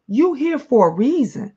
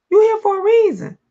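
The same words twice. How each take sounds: First: Said in the usual way. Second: "You here for a reason" much higher, "You" stressed; ringing encouragement, "You" stressed; emphatic higher repeat. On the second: Real, not acted. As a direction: lift the repeat way up and lean on "You".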